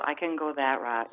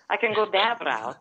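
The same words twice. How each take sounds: First: Said in the usual way. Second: Croatian-Italian accent; mother's foreign accent. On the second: Shown as a demonstration. Showing the host her put-on voice, foreign accent. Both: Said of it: "I do have a foreign accent".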